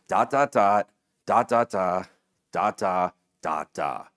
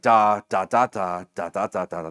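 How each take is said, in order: First: The beats are grouped with short pauses between. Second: The beats come evenly without any grouping. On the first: This is how everyone recites a phone number. The speaker calls it right. "it is almost always with the rhythm" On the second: Only a strange person recites a number this way. The speaker calls it wrong. "they're psychopaths"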